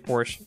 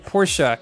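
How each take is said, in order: First: The name is said the English way. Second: The name is said the German way. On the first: "It's easier to say Porsche" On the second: "its official pronunciation"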